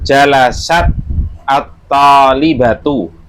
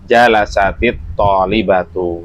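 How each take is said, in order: First: Jalasat is said without a linking 'i' vowel. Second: Jalasat joins the next word with an 'i' vowel.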